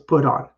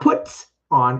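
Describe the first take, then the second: First: The T is light and soft, linked into 'on'. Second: The T is hit hard and clearly released. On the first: The speaker calls it right. "I don't actually hit the T very hard. It's a light one" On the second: The speaker calls it wrong.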